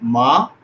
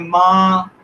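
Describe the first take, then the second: First: The pitch rises through the syllable. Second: The pitch stays flat and level. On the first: "ये है rising tone" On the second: "flat tone है first tone"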